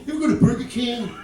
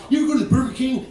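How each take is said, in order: First: Quicker hyped-up repeat; fast mock observational comic; Dane Cook impression. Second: Dane Cook impression. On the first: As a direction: rattle it off like a hyped stand-up. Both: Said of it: "like Dane Cook".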